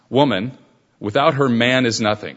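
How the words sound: There is a pause after woman.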